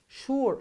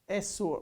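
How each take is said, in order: First: The word begins with a sh sound. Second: The word begins with an s sound. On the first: The speaker calls it right. "it's sure, sh, sh" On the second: The speaker calls it wrong. "You don't say s"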